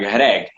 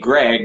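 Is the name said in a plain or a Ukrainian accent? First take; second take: Ukrainian; plain. First: The name is said in a Ukrainian accent. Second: The name is said in a plain accent.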